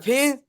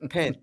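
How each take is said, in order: First: The vowel sounds like the one in "pin". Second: The vowel sounds like the one in "pen". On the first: This is how the locals said it. "You meant a pen" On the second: This is how the speaker says it. "You meant a pen. Pen"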